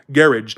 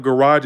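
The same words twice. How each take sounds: First: "garage" as GARR-idge; British pronunciation. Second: Said in the usual way. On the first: Shown as a demonstration. Showing the London friend's word, "garage" as GARR-idge. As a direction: stress the first syllable of "garage", ending like -idge. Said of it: "she says garage". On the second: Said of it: "instead of garage".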